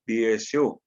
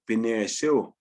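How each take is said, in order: First: It has no consonant between 'Bi' and 'esu'. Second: It has an n sound between 'Bi' and 'esu'.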